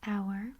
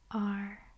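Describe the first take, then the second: First: It sounds like the word 'hour'. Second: It sounds like the letter R. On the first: "I would pronounce this word as hour" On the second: "but it is also pronounced R"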